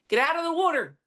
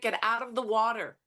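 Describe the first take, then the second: First: It is said in a South Philly accent. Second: It is said in Standard American English.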